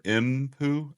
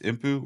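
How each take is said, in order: First: The M sound is drawn out longer. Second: The M sound is short and quick.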